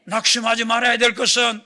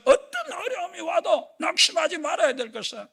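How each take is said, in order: First: Said in the usual way. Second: Higher, louder shouted repeat; preaching shout. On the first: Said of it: "repeated with rising force". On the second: Shown as a demonstration. The preacher urges the congregation not to despair, in a rising shout. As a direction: drive it home with a cry. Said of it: "repeated louder".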